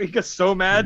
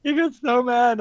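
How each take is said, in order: First: Said in the usual way. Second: Higher, louder emphatic repeat. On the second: Real, not acted. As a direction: say it again, higher and louder for effect.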